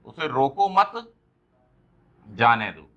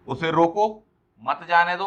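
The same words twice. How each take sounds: First: Slow उसे रोको मत, long pause, then जाने दो falling lower; pause after मत. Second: उसे रोको rising, brief break, then मत जाने दो together; pause after रोको. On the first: Teacher reads the let-him-go meaning, long pause after मत. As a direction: join मत to रोको, break, then drop on जाने दो. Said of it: "और एक और सेंटेंस आपको दे दिया". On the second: Teacher reads the stop-him meaning, pause after रोको. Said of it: "अगर इसी सेंटेंस को अपन दो बार बोल दें". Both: Shown as a demonstration.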